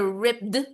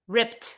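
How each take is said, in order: First: The ending is a voiced d sound. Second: The ending is a voiceless t sound. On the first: The speaker calls it wrong. "Hindi din siya ripped" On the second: The speaker calls it right. "but instead t"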